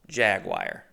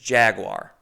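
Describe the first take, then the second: First: The word is not sounded out letter by letter. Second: Every letter of the word is sounded out. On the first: The speaker calls it wrong. "It's insane to pronounce it Jaguar" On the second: The speaker calls it right. "You got to say it how it's spelled"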